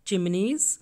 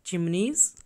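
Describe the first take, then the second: No difference in how they are said.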